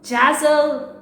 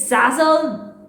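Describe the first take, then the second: First: "Jazzle" begun with a J sound; "Jazzle", J in place of Z; J pronunciation. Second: "Zazzle" begun with a Z sound; "Zazzle", first sound as in zoo; Z pronunciation. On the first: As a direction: say "Jazzle" starting like jazz. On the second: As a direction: say "Zazzle" with a buzzing Z at the start. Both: Shown as a demonstration. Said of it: "Some people say it's".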